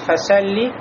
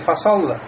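First: The s sound is light, like a plain s. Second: Both the s and the l sound heavy. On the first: "нельзя сказать фасалли, фасалли, видите, сод стал как син" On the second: "Или некоторые фасолла... Лям делает, добавляет в него... насыщенность, тафхим"

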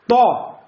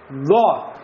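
First: The consonant is a voiceless t-like stop. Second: The consonant is a voiced d-like stop. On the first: The speaker calls it wrong. "Слишком приложил – будет то" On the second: The speaker calls it right. "опять придержаться середины, будет «до»"

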